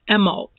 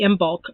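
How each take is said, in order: First: The b sound is left out. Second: The b sound is clearly pronounced. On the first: "The proper way to say it is Emolc" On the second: "it could be Imbolc"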